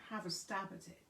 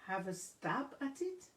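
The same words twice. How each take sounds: First: Said in the usual way. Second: Puzzled rise on "Have a stab at it?"; puzzled question. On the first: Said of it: "That means trying". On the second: Acted. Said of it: "Annalie questioned".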